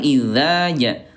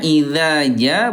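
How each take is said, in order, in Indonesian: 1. Bunyi dh berat, pangkal lidah dinaikkan. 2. Bunyi dh ringan, pangkal lidah diturunkan. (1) "bukan idza ja" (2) "Idza ja bukan"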